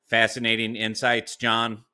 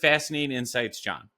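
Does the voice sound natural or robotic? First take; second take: robotic; natural. First: It is read in a flat, mechanical robot voice. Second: It is read in a normal, natural speaking voice. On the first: "I'll read it in my robot voice" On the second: "so I'll read it in normal voice"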